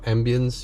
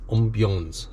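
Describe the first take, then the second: First: The word has a plain English pronunciation. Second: The word has a French-style pronunciation.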